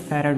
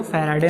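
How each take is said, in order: First: Said in the usual way. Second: फैराडे with long middle "aa" and "-ey" ending; wrong pronunciation. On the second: Shown as a demonstration. Teacher correcting students, फैराडे shown mispronounced as "fai-raa-dey". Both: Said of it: "फैराडे नहीं होता है".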